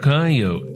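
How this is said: It is said in a southwestern dialect pronunciation.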